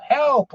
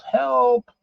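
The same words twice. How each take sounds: First: Higher and louder yell of help. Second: High yell for help, not much louder; retold yell for help. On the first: Retold or imitated. Drowning swimmer calling louder over the waves, higher yell. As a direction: push the call harder to be heard. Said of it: "a little bit louder". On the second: Drowning man yelling to the lifeguard, high mock yell. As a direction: call out to the distant lifeguard. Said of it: "I, I yelled".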